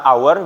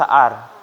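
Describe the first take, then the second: First: The word is said with the full 'our' diphthong. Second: The word is reduced to sound like 'are'. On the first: "Bisa our" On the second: "bisa are"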